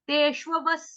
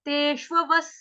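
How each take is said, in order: No difference in how they are said.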